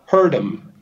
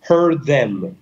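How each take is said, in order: First: The th is dropped and the d is kept. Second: The d is dropped and the th is kept. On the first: "non dicono il TH ma dicono la D" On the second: "salto la D e vado direttamente al TH"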